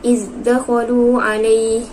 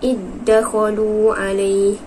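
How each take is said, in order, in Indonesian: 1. Bunyi z pada iz tetap terpisah. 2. Bunyi z pada iz menyatu dengan d.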